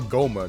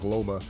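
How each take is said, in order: First: The name starts with a plain G sound. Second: The name starts with a G-L cluster. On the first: The speaker calls it right. "there we go" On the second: The speaker calls it wrong. "I've been saying Gloma"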